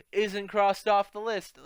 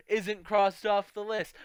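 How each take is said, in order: Both takes have the same delivery.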